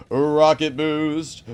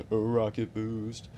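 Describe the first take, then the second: First: Slow, loud, drawn-out call; hyped announcement. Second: Said in the usual way. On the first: Acted. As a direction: announce it like a launch. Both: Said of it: "three, two, one".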